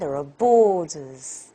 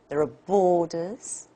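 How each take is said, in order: First: The pitch falls clearly at the end. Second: The pitch falls, then rises slightly at the end. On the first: "very obviously it's a fall" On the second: "something like fall first, and a slight rise"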